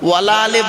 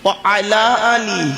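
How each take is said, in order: First: Wa and ala run together as wala. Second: Wa and ala are said as separate words. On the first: It means 'and not', a negative. The speaker calls it wrong. "ওয়ালা আলে বলবেন না। ওয়ালা আলে বলে কোনো শব্দ নেই।" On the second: It means 'and upon the family'. The speaker calls it right. "আলাটা হলো ইংরেজিতে বলে প্রিপজিশন"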